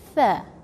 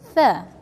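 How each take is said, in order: First: The word begins with a th sound. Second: The word begins with a th sound.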